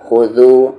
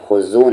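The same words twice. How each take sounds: First: खुदू with द as th in this; correct zaal sound. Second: खुजू with a plain buzzing z; wrong z sound. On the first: Teacher drilling zaal, voiced th in खुदू. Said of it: "खुजू नहीं". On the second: Teacher showing what not to say, plain z in खुजू. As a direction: say खुजू with z instead of voiced th. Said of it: "नहीं". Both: Shown as a demonstration.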